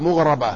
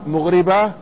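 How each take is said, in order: First: مغربة pronounced "mughraba", a after the ra; ra with fatha. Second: مغربة pronounced "mughriba", i after the ra; ra with kasra. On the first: Teacher contrasts the two readings, this one with fatha. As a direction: give مغربة a clear fatha on the ra. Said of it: "وبفتح الراء". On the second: Teacher contrasts the two readings, this one with kasra. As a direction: give مغربة a clear kasra on the ra. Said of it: "يعني بكسر الراء". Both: Shown as a demonstration.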